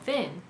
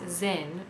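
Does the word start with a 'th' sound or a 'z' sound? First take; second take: th sound; z sound. First: The first sound is a 'th' sound. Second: The first sound is a 'z' sound. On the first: The speaker calls it right. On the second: The speaker calls it wrong.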